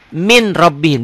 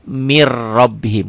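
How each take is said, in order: First: The first word ends with a clear n sound. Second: The n merges into a doubled r sound. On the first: This is how it is written. The speaker calls it wrong. "Tulisannya min rabbihim, ada N-nya" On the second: This is how it is recited. The speaker calls it right. "dibacanya mir rabbihim"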